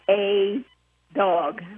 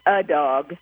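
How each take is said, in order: First: The article is said in full as 'ay'. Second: The article is reduced to a weak 'uh'. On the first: The speaker calls it wrong. "Nobody says a dog" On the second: The speaker calls it right. "We say a dog"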